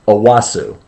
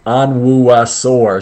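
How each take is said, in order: First: The name is pronounced in a shorter, reduced form. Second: Every letter of the name is pronounced fully. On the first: It is the name's actual pronunciation. The speaker calls it right. "but it's Owasu" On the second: It helps someone write down the spelling. The speaker calls it wrong. "so she spells it out correctly, phonetically"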